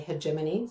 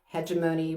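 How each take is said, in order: First: It is said with a British pronunciation. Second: It is said with an American pronunciation. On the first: "British people say hegemony" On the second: "Americans say hegemony"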